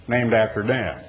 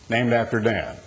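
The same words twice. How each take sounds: The two takes are said the same way.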